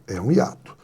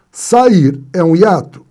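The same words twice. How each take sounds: First: "É um hiato." answered lower and softer, settled; teacher answering own question. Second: "Sair é um hiato?" asked slowly with a louder, questioning tone; teacher asking the class. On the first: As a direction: give the answer "É um hiato." quietly and firmly. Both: Shown as a demonstration.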